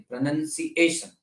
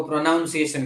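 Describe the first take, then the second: First: "પ્રોનન્સિએશન" with a short NUN in the second syllable; corrected pronunciation. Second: "પ્રોનાઉન્સિએશન" with a NOUN sound in the second syllable; common mispronunciation. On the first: Teacher correcting the common error, "પ્રોનન્સિએશન" pronounced with "nun". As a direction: say "પ્રોનન્સિએશન" as pro-nun-si-A-tion, softly. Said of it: "પણ એમ નહીં". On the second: Teacher showing students the common error, "પ્રોનાઉન્સિએશન" mispronounced with "noun". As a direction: say "પ્રોનાઉન્સિએશન" as pro-NOUN-si-ation. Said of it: "લોકો પ્રોનાઉન્સિએશન કહેતા હોય છે".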